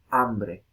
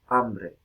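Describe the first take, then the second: First: The word begins directly with the vowel. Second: The word begins directly with the vowel.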